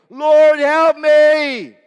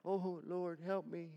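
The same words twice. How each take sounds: First: Much louder, higher shrieking cry; full-voiced screaming plea for help; desperate scream. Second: Softer, small mock prayer; a timid little plea; understated quiet plea; soft half-hearted plea. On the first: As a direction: scream for help as you sink. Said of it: "Do you think that was a". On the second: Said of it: "I'm sure that was a".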